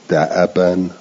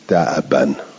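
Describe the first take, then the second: First: The hamza carries a short vowel. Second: The hamza is silent, with no vowel. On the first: "قرأ حفص" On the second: "به سکون همزه"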